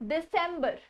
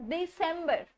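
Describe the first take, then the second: Both takes have the same delivery.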